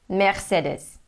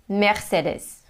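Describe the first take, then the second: Both takes have the same delivery.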